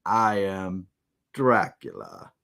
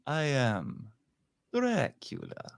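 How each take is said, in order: First: Low, deep, slow vampire announcement; Dracula impression. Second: Hushed and eerie, then lift the name; Dracula impression. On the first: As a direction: drop the voice deep on the name. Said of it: "how about this line". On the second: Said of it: "dueling Draculas here".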